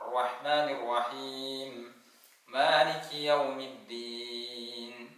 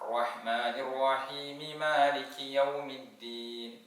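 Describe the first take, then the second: First: There is a stop after rahim. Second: Rahimi runs straight into maliki without stopping. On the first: "വഖഫ് ചെയ്ത് നിർത്തി ഓതിക്കോളൂ" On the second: "അങ്ങനെ ഓതണം"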